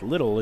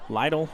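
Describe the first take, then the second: First: It sounds like the everyday word little. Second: It does not sound like the word little. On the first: The speaker calls it wrong. "not pronounced Little" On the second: The speaker calls it right. "It's Lytle, I want to say, I guess, maybe"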